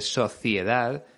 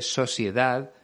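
First: The c is said like a th. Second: The c is said like an s.

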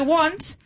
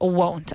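First: The vowel is open and unrounded, like 'want'. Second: The vowel is a long, rounded 'oh' sound. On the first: Listeners cannot tell whether it means want or will not. The speaker calls it wrong. "la gente no sabe que es want de querer or won't de will not" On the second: It clearly means will not. The speaker calls it right. "So the correct pronunciation here is won't"

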